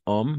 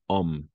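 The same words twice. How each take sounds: First: "homme" misread as OH-may, final e voiced; wrong sounded E. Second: "homme" as one syllable, om; silent final E. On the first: Teacher showing learners the mistake, "homme" with final e sounded. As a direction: say "homme" in two syllables, ending in a clear e. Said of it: "no pronunciamos homme". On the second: Teacher correcting learners, "homme" with the final e silent. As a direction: end "homme" on the m, no vowel after it. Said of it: "sino homme". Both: Shown as a demonstration.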